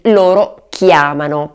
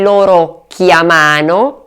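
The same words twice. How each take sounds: First: The stress falls on the first syllable. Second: The stress falls on the second syllable. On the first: The speaker calls it right. "bensì" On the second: The speaker calls it wrong. "Non si dice"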